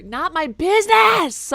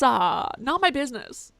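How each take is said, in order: First: Loud, slow, drawn-out outburst; dramatic yell. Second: Said in the usual way. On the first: Acted. Player reading a game line, dramatically shouted. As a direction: belt it out like a stage actor. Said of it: "How else am I supposed to read it?". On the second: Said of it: "Just normal?".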